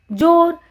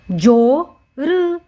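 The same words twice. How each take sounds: First: Said in the usual way. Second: "जोर" split as जो... र; "जोर" very slow, letter by letter; sounded out. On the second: Shown as a demonstration. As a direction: draw out जो, then add र for "जोर". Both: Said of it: "इसका उच्चारण हम करेंगे जो".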